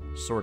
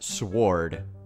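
First: The W sound is silent. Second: The W sound is clearly pronounced. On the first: The speaker calls it right. "Sword is much better" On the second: The speaker calls it wrong. "technically pronounced sword. You're supposed to pronounce the W"

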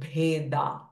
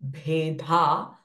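First: The d sound is unaspirated, without a puff. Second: The d sound is aspirated, with a breathy puff. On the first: The speaker calls it right. "the is a alpa prana sound" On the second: The speaker calls it wrong. "It is not"

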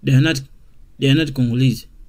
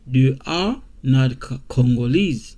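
First: They are is contracted into one quick syllable. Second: They are is said as two full words.

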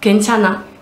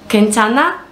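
First: It is said as an answer, falling. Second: It is asked as a question, rising.

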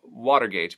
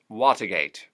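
First: The R after water is pronounced. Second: The R after water is dropped.

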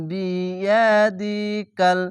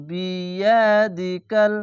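Both takes have the same delivery.

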